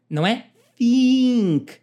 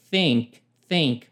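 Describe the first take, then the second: First: "think" said as "fink" with an f; mock the wrong "fink"; wrong pronunciation of "think". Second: "Think" said with the tongue between the teeth; correct th. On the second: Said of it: "é um som de E". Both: Shown as a demonstration.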